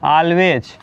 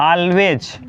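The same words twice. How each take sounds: Both takes have the same delivery.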